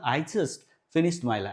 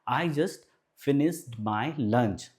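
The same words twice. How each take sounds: First: It is said quickly in one smooth run. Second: It is said slowly in three separate chunks. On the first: "अब अगर आप speed से बोलना है तो इसको कैसे बोलना" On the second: "तीन भाग में बांट दें"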